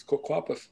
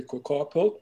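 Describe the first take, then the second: First: "Coquapath" said ko-KWA-path, ending in a soft th; correct pronunciation. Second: "Coquapult" said ko-KAR-pult, ending in -pult; common mispronunciation. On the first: Elder correcting listeners, "Coquapath" with kwa and th. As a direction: give "Coquapath" its true form, with kwa and a soft th at the end. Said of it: "but it's Coquapath". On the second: Elder showing listeners the wrong form, "Coquapult" ending in -pult. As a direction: say "Coquapult" the way people get it wrong. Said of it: "Or people say". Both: Shown as a demonstration.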